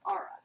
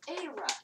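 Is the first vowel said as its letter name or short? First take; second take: short; letter name. First: The first vowel is a short a sound. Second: The first vowel sounds like the letter name A. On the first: The speaker calls it wrong. "not Ara" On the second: The speaker calls it right. "the vowel before gets pronounced as its name"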